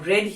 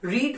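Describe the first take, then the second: First: The vowel is a short 'e' sound. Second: The vowel is a long 'ee' sound. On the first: It is the past form of the verb. "रेड second form है" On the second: It is the present form of the verb. "रीड first form है"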